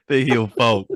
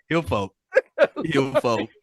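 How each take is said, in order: First: Giggling through the words; cracking up mid-phrase; laughter breaking into the words; laughing. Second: Said in the usual way. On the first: Real, not acted. Laughing while correcting name.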